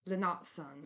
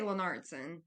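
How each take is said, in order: First: It is said with a British-sounding accent. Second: It is said with a Southern American twang. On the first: "he probably says it more like ... That sounds like British" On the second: "with an American accent ... that's with a southern twang"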